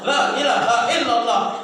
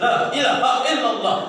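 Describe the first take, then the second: The two takes are said the same way.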